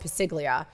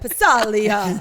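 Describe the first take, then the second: First: The name is said with an 'ig' sound. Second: The name is said without a G sound. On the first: The speaker calls it wrong. "he didn't know how to pronounce it" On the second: The speaker calls it right. "The G is silent"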